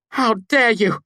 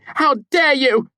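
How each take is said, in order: First: Much higher, louder furious shout. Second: Much higher, louder, slow outraged scream; slower furious shout. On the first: Devi, bound by magic, shouting in fury. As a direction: hurl it at him in outrage. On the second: Devi repeating her scream at Kvothe, slow and furious. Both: A narrator's reading. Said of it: "she shouted".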